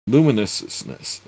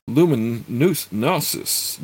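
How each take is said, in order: First: Luminousness said again firmly with a falling tune; corrected reading. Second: Luminousness stretched out slowly and unsure, with a rising tune; sounding out luminousness haltingly; stumbled reading. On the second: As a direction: luminousness fumbled slowly as a question. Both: Shown as a demonstration. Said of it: "Sorry there".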